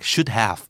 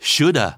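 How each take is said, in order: First: Have is said as a separate full word. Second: Have shrinks to a short 'uh' sound. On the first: "ร่างเต็ม" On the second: "ลดรูปมาจาก"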